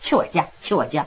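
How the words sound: It is said in a casual, offhand way.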